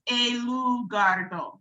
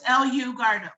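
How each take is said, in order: First: The name is said with Spanish sounds. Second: The name is said with English sounds. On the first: "and then in Spanish, it's El Gardo" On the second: "in English, it's El U Gardo"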